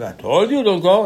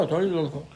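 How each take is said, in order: First: Reproach. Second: Said in the usual way. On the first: Retold or imitated. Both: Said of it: "Moshe said".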